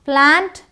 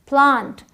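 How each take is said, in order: First: It has an American flat a vowel. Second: It has a British broad ah vowel.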